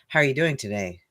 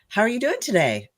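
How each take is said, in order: First: The voice falls at the end. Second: The voice rises at the end.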